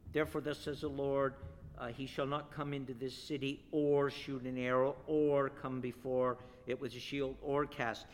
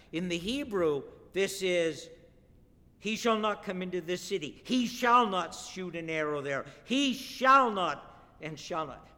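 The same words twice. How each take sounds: First: Said in the usual way. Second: Each shall not driven harder, louder; emphatic stress. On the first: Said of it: "you don't get the emphasis". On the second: Shown as a demonstration. Preacher pounding the Hebrew repetition, emphatic. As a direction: hammer every shall not home. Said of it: "very emphatic".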